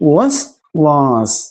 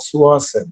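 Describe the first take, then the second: First: The word begins with a brisk 'wa' sound. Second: The word begins with an 'o' sound. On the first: The speaker calls it right. "ശരിക്കും വാവാണ്... കുറച്ച് ചടുലമായിട്ട് ഉച്ചരിക്കണം" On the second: The speaker calls it wrong. "അപ്പൊ ഓ എന്നാണ് പറയുക"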